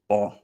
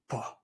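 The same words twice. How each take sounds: First: The syllable has a low level tone. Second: The syllable falls with a breathy voice. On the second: "the falling breathy tone"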